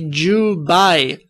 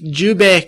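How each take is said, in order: First: The word ends in an 'ay' diphthong. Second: The word ends in a plain 'eh' vowel. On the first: The speaker calls it right. "It's actually the Jubai Kamehameha" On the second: The speaker calls it wrong. "But that's not correct"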